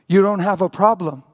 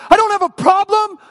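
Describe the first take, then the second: First: Measured reply holding his ground; composed voice of God, only mildly raised; gentle, firm. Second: High, loud outraged retort; acted furious shout, pitch way up; angry yelling at God. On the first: Retold or imitated. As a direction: answer calmly, without screaming. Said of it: "God held his ground and whispered gently". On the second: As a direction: yell it back in disbelief. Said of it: "like I yelled at God".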